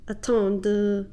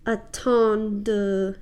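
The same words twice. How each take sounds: First: Attendre with a long, stressed D again; D held longer. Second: Attendre with a long, stressed D; French D drawn out; D held longer. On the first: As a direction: press the D in attendre. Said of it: "really put that d at the end". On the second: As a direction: lean on the D in attendre. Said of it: "So you make it last longer". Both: Shown as a demonstration.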